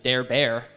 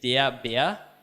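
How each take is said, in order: First: An English-style r sound is pronounced. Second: No English-style r sound is pronounced. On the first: The speaker calls it wrong. "that's not great German" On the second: The speaker calls it right. "if you don't know that there's a written R"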